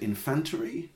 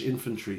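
First: It is pronounced phonetically, the Spanish way. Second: It is pronounced the usual English way.

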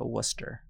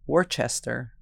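First: It is said as two syllables, like Wooster. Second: It is said with every written syllable pronounced. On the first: This is how the name is actually said. "but it is also Worcester" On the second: This is how the spelling looks. "Looks like Worcester"

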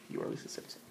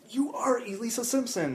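First: It is said calmly as a plain statement. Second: It is said loudly as an exclamation.

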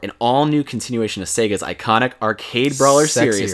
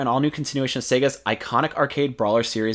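First: It is read slowly in a sultry voice. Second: It is read at a plain, normal pace.

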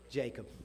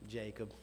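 First: It is said in a plain, neutral voice. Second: It is said in a weary, tired voice.

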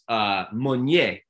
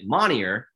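First: The name is said with a French pronunciation. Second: The name is said with an American pronunciation. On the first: This is the original family pronunciation. The speaker calls it right. "when my family lived in France, it was Monnier" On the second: This is how others mispronounced the name. The speaker calls it wrong. "when they came over to the States, everyone would pronounce it Monnier"

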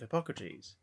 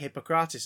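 First: The name is pronounced the usual English way. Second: The name is pronounced the French way. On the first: The speaker calls it right. "instead of Hippocrates" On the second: The speaker calls it wrong. "in France they say Hippocrates"

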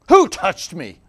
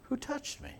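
First: The question sounds harsh and demanding. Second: The question sounds soft and gentle. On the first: The speaker is annoyed and demanding an answer. The speaker calls it wrong. "But I don't think Jesus said it like that at all" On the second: The speaker is kindly inviting the person to come forward. The speaker calls it right. "It was gentle"

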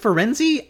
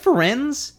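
First: The name ends with an added 'ee' vowel. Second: The name ends on a z consonant sound. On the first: "Is it Ferenzi?" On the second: "Is it Ferenz?"

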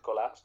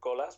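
First: The surname is said the native way. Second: The surname is said the usual English way. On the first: The speaker calls it right. "but then you said Colas, then so proud for it" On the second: The speaker calls it wrong. "usually without the accent in England is Cristian Colas"

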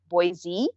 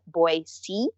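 First: The middle consonant is a buzzing z sound. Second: The middle consonant is a hissing s sound. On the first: This is how people from elsewhere say it. The speaker calls it wrong. "everyone says, if you're not from here" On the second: This is how locals say it. The speaker calls it right. "the correct way to say it is Boise, like S-E-E"

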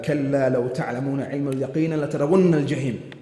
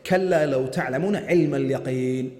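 First: The two verses run on without a pause. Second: The recitation stops after اليقين.

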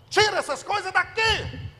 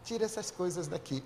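First: It is said forcefully, with strong authority. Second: It is said meekly, without force.

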